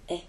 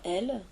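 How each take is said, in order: First: The l sound at the end is dropped. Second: The l sound at the end is pronounced. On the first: "on entend elles" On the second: "Au lieu d'entendre elles"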